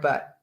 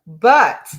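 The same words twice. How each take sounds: First: Said in the usual way. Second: "but" said loud and pointed; stressed but. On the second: Shown as a demonstration. Repeating the client's word, a loud stressed "but". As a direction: hit "but" with a loud jab. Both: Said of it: "don't love that word".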